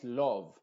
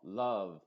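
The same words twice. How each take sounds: First: LOVE with a rounded O, as LOHV; LOVE with lips rounded on the vowel; mispronounced. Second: LOVE as LUHV, short neutral 'uh'; LOVE with a relaxed, unrounded vowel; correct vowel. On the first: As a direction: say LOVE wrongly with an O. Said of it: "Te fijas, no es love". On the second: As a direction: say LOVE without rounding the lips. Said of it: "sino love". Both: Shown as a demonstration.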